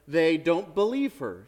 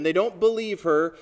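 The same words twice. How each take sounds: First: Said in the usual way. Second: "don't" pushed harder and louder; stress on don't. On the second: Shown as a demonstration. Preacher pressing the point to the congregation, stressing "don't". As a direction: lean into "don't". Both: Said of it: "You can imagine".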